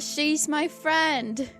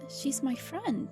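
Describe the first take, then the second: First: It is said louder. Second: It is said at normal volume.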